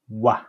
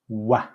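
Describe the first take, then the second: Both takes have the same delivery.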